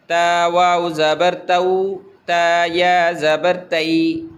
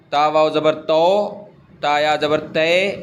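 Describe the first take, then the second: First: تو said as "au" and تئی said as "ai"; correct maroof diphthongs. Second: تو said as a pure long "o" and تے as a pure long "e"; deliberately wrong Urdu-style تو and تے; wrong majhool vowels. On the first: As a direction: glide تو into "au" and تئی into "ai". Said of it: "معروف پڑھنا ہے". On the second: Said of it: "یہ جو ہے نا... مجہول کہلاتا ہے". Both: Shown as a demonstration.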